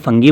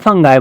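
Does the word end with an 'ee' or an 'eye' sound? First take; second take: ee; eye. First: The word ends with an 'ee' sound. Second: The word ends with an 'eye' sound. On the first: This is the British way of saying it. "अगर आप इसको British accent में बोले तो ये फंगी बन गया" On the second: This is the American way of saying it. "आप इसको अमेरिकन एक्सेंट में बोले तो ये फंगाई बन गया"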